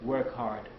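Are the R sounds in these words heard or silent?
heard. The R sounds are fully pronounced, American style. "it's easier to learn"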